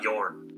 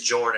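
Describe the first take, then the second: First: The name begins with a 'y' sound. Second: The name begins with a 'j' sound. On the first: The name follows its original language. "and not Yorn" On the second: The name is pronounced straight, ignoring its origin. "They pronounce everything straight"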